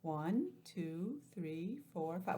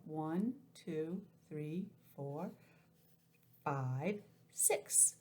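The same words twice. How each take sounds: First: Put-on slow counting for kids; counting aloud. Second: Put-on careful counting for kids; counting aloud. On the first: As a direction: count each one out. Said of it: "Let's count them". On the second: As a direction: count them out slowly. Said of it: "I guess they don't count that". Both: Shown as a demonstration.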